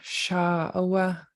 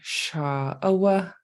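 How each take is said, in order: First: The first vowel is long with a high tone. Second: The first vowel is long with a low tone. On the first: It is a woman. "you have a long high ah for Shah" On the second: It is a mountain. "Shah would be long and low"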